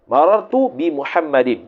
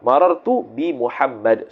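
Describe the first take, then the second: First: The last word ends with a full 'din' syllable. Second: The last word ends with a bare 'd' sound. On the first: The phrase is read in running speech. "Tu kalau baris" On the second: The reader stops at the end of the phrase. "Kalau wakaf"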